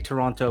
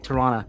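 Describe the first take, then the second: First: It is said fully, as spelled, non-locally. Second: It is said the local Toronto way, clipped.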